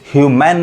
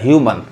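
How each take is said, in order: First: The last syllable has an open 'man' vowel. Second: The last syllable has a short 'mun' vowel. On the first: The speaker calls it wrong. "ह्यूमैन नहीं, गलत हो जाएगा" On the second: The speaker calls it right. "अ पढ़ा रहा है"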